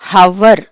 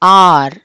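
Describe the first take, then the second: First: The word begins with an h sound. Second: The word begins directly with a vowel. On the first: The speaker calls it wrong. "హవర్ అని అనకూడదు" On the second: The speaker calls it right. "హెచ్ is silent, ఆర్ అని చెప్పి అనాలి"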